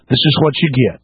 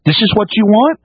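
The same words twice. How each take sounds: First: Low falling verdict. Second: Rising taunt. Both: Real, not acted. Alternating taunt pair.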